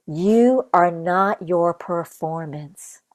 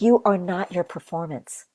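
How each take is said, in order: First: Each word slowed right down for weight; "You are not your performance" said very slowly with every word given weight; slow, emphatic repeat. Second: Said in the usual way. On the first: Shown as a demonstration. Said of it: "You are not your performance (repeated)".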